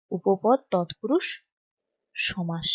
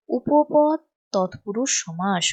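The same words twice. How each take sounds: First: Drawn-out term, pause before the last word; spaced-out writing-along delivery; slow dictation. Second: Said in the usual way. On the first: Shown as a demonstration. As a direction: dictate slowly while writing, dropping softer at the end.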